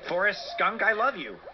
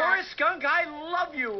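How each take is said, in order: First: It is said flatly, without feeling. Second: It is said with great enthusiasm.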